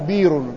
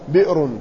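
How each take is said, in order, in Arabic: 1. لا تُسمع همزة قبل الحرف الممدود. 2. تُسمع همزة قبل الحرف الممدود. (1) "يجوز تخفيف همزتها، يقال بير" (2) "مهموزة"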